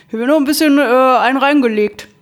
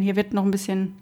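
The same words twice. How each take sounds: First: Louder restart. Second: Said in the usual way. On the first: Real, not acted. Restarts the phrase more loudly.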